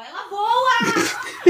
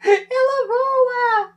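First: Shrieking in panic at a flying bug; high terrified squeal, dragged out; startled scream. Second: Crying out in real fright; high, slow, tearful shriek; panicked wail. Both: Real, not acted. Cockroach flies, panic.

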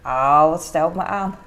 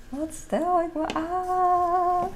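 First: Said in the usual way. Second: "Wat stel ik me aan" drawn out slowly, high and soft; teasing herself, slow and higher; mock self-mocking drawl. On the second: Shown as a demonstration. Scolding herself for a kitchen fuss: slow high mock drawl.

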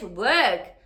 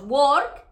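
First: "work" with a long er vowel and silent R; "work" with no R and a longer vowel; British work rhyming with bird. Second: "work" with an o vowel and a rolled R; the way learners usually say "work"; "work" said like a Spanish word; usual Spanish-style work. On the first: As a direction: make "work" rhyme with bird. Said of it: "de repente es work". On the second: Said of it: "siempre decimos work y de repente es work". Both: Shown as a demonstration.

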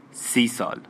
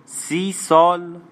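First: Said in the usual way. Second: High, loud, very drawn-out astonished question; incredulous. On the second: Acted. Régine echoes the man's thirty years, incredulous. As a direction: repeat it slowly in raised, stunned disbelief. Astonished echo of his answer.

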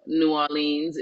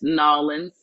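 First: Said in the usual way. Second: "Nolans" run together as two syllables, NAW-linz; local Southern pronunciation. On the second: Shown as a demonstration. Guest shows how hometown people say it, local Southern "Nolans". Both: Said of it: "that's the way that they would normally say it".

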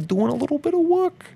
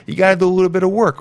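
First: Higher, softer silly put-on voice; odd put-on voice. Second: Said in the usual way. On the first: Podcaster nags listeners in a silly higher voice. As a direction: pitch it up and hush it, committing to the bit. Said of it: "why am I talking like this? I don't really know, but I'm committing to it". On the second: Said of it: "why am I talking like this?".

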